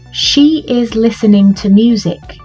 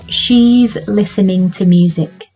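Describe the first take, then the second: First: She and is are said as two separate words. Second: She and is are joined into one syllable.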